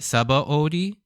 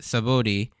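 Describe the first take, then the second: First: The O sound is clearly emphasized. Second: The O sound is reduced and not emphasized. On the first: "a lot of people that emphasize the O" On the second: "I always pronounce it Sabodi"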